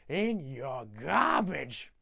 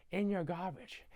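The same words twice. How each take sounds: First: Very slow, hammed-up repeat; drawn-out emphasis. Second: Softly acted, understated aside; quiet mock confiding. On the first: Grinch hammering it home to the Whos, slow drawl. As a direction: stretch every word theatrically. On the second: Grinch confronting the Whos, quiet first mention. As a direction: keep it soft, like confiding in them.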